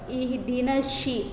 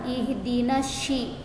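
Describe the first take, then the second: No difference in how they are said.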